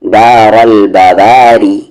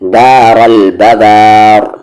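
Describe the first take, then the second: First: The phrase continues with a light r plus vowel. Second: The phrase ends on a stopped, heavy r. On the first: The reciter continues without pausing. "Light" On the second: The reciter pauses on the word. "Heavy"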